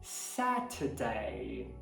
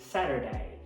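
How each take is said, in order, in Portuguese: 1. Tem um T claro e não tem som de R. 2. Tem um T batido e uma vogal com som de R. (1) "Já no britânico, a gente não vai fazer esse er" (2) "Vai virar um tep"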